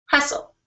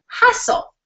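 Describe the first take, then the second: First: Hustle said a touch higher but softer, like a private reminder; understated self-reminder hustle; quiet hustle. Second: Hustle whispered high and breathy, drawn out; punchline word. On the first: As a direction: murmur hustle to yourself with resolve. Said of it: "Again, remained calm". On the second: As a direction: land the word Hustle as a hushed, high reveal. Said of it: "this is where my point comes". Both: Shown as a demonstration.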